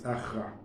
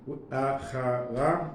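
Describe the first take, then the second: First: The word has two syllables, with no middle vowel. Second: The word has three syllables, with a middle vowel. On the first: The speaker calls it right. "but it's Achra" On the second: The speaker calls it wrong. "I apparently been pronouncing, mispronouncing. Instead of, it's written here Achara"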